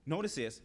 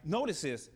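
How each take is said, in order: Both takes have the same delivery.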